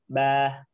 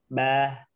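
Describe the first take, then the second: The two takes are said the same way.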